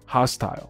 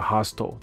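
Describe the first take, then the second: First: The final syllable rhymes with 'isle'. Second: The final syllable is a reduced 'ul' sound. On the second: "或者L 都是OK 的"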